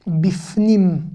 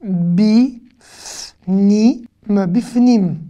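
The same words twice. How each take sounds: First: Said in the usual way. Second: Drawn-out syllables with clear gaps. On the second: Shown as a demonstration. Teacher sounding out a new word for learners, syllable by syllable. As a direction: sound it out slowly, each part separate.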